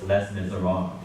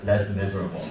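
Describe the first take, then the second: First: It is said with a French pronunciation. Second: It is said like the English words less miserable. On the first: The speaker calls it right. "It's les miserables. This is a French word" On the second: The speaker calls it wrong. "this word does not is not pronounced as less miserable"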